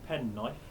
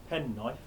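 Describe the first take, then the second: No difference in how they are said.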